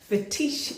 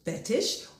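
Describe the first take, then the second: First: It is said with a fancy, French-sounding ending. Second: It is said like the plain English word.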